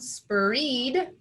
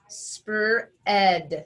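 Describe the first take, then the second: First: The vowel is a long E sound. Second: The vowel is a short eh sound. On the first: The speaker calls it wrong. "If we start with the most common sound, which is that long E sound" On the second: The speaker calls it right. "let's change that vowel sound to eh"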